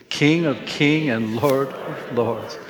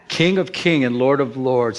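First: Each word drawn out slowly for all to say together; slow proclamation. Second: Said in the usual way. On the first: Shown as a demonstration. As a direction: lead the room through it slowly. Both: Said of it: "Can we say that out loud".

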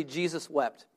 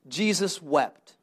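First: Jesus wept softly, for the congregation to echo; quiet repeat. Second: Jesus wept said slowly, each word weighted; slow reading. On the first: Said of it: "Everyone say this. Say". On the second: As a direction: let Jesus wept land slow and heavy. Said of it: "Everyone say this". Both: Shown as a demonstration.

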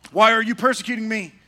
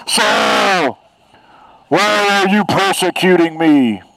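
First: Said in the usual way. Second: Booming divine voice from the sky; God voice. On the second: Acted. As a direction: thunder it down from heaven. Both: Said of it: "That's my God voice".

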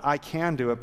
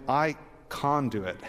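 First: Said in the usual way. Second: "can" as "kahn", mock Australian; Australian accent. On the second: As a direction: say "can" with a broad Australian "ah", like "con". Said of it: "your very best Australian accent".

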